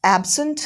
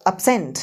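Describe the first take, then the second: First: absent as AB-sunt, pitched higher; first-syllable stress. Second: absent as ub-SENT, falling; second-syllable stress. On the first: Teacher drills word pairs with students, absent stressed as AB-sunt. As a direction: punch AB in absent, ending up. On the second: Teacher drills word pairs with students, absent stressed as ub-SENT. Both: Shown as a demonstration. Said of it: "सारे के सारे words एक बार पढ़ लो".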